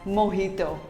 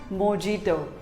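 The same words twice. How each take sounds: First: The middle consonant is an H sound. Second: The middle consonant is a J sound. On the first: The speaker calls it right. "The J is pronounced as H" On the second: The speaker calls it wrong. "not mojito"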